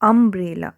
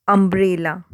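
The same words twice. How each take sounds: First: अम्ब्रेला again, first vowel "a" made clear; teacher's model word; repeated demo. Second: अम्ब्रेला with an open "a" at the start; sounding out umbrella. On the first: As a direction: say अम्ब्रेला leaning on the opening "a". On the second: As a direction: demo pronunciation. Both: Shown as a demonstration. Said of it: "तो कैसे कर रहे हैं?".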